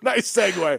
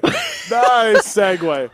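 First: Said in the usual way. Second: Slow drawn-out. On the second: Acted. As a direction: stretch out each word slowly.

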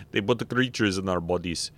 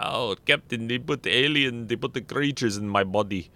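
First: Said in the usual way. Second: Lightly put-on Russian accent, hammed up; a bad Russian accent for an alien complaint to the captain; terrible Chekhov accent. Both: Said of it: "that was a terrible Chekhov accent".

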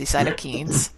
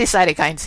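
First: CYTOKINES ending like "keens"; other's pronunciation. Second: CYTOKINES ending like "kinds"; own pronunciation. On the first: Retold or imitated. Host quotes guest's way, cytokines said "keens". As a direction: say cytokines with a long ee, "SY-toe-keens". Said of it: "You say cytokines". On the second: Shown as a demonstration. Host compares with guest, cytokines said "kinds". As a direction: say cytokines with a long i, "SY-toe-kinds". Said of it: "I say cytokines here".

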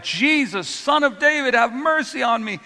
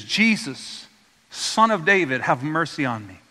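First: Pleading call, pitched much higher; a desperate plea called out over the noise; crying out. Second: Said in the usual way. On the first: Retold or imitated. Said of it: "he continues to cry out". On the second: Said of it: "And he says".

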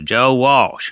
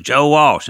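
First: "Joe Walsh" said higher and louder, pressing the name; insistent repeat. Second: "Joe Walsh" pushed even higher and louder, a little exasperated; more insistent repeat. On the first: Caller repeats his name. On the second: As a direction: say the name again, now insisting hard. Caller repeats name again. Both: Retold or imitated.

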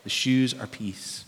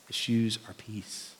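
First: Said in the usual way. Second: "The shoes are peace." dropped soft and slow; softer, slower repeat. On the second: Shown as a demonstration. Pastor repeating the point to his church, soft and slow. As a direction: let "peace" land quietly and slowly.

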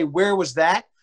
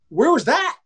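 First: Said in the usual way. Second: High, indignant protest; mock outraged holler; imitated yell at umpire. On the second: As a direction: challenge the ump's call loudly. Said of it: "he yelled at the ump like this".

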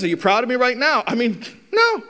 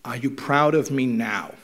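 First: Mocking retort. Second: Sincere plea. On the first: Skeptical parent mocking the son's question, scornful and fast. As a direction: throw the kid's question back with a sneer. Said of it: "And he says". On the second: Retold or imitated. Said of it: "the kid says to the father".

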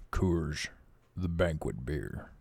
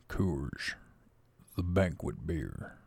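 First: Low, slow ad-voice imitation, not quite there; Sam Elliott impression. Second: Lower, slow gravel-toned beer ad voice; Sam Elliott impression. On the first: Imitating a beer ad to his viewers, low and slow. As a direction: try for a deep cowboy pitchman and fall short. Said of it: "Sam Elliott". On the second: Retrying the beer ad for viewers, lower and slower. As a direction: go deeper and drag it out like an old cowboy. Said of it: "Wait, let me try that again".

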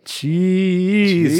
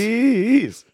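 First: Drawn-out silly call. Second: Higher, squeaky echoed name. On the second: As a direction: echo it in a squeak. Echoing nickname higher. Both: Pretend.

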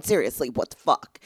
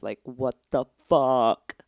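First: Said in the usual way. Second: Slow, drawn-out "what the fuck" in an altered voice; dragged, incredulous "fuck"; exasperated. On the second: Real, not acted. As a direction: stretch it out in disbelief.

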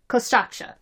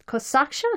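First: Kosaksha said firmly with a fall; settled pronunciation. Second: Kosaksha tried with a questioning rise; checking pronunciation. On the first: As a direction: land Kosaksha with a sure falling tune. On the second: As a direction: test the word Kosaksha with a rising tune. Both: Shown as a demonstration.

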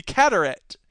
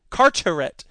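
First: "Carteret" with first syllable like "cat"; first-guess pronunciation. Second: "Carteret" with first syllable like "car"; second-try pronunciation. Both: Shown as a demonstration. Tries two readings of town name.

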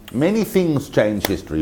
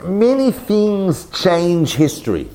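First: Said in the usual way. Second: Slow, higher, weighty pronouncement on "many things change history"; slow dramatic statement. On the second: Shown as a demonstration. Lecturer opening his big thesis, slow and dramatic. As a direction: let "many" hang, grand and slow.

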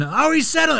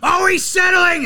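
First: High mock whine of oh he's settling; commentator complaint. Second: High, loud mock yell of oh he's settling; commentator complaint. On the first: Mimicking the Hornets caller a second time, high mock whine. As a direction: repeat the homer announcer's moan, pitched up. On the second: Mimicking the Hornets caller moaning at Embiid, high loud yell. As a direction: whine it like an outraged homer announcer. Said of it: "he's like".

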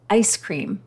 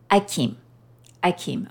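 First: Said in the usual way. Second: Put-on baby saying ice cream. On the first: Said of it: "one of the things he would say is". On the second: Mother imitating her baby son's first words, lightly toddler-voiced. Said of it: "he would say it like this".

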